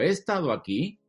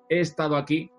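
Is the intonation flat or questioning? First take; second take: questioning; flat. First: The intonation is melodic, like a question. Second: The intonation is flat, like a plain statement. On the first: The speaker doubts whether they have been here. "si lo pregunto... si lo canto, si lo musicalizo" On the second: The speaker affirms having been here. "es una pronunciación muy lineal. No hay música en esto"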